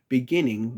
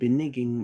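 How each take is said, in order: First: The second syllable starts with a g sound. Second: The second syllable starts with an n sound.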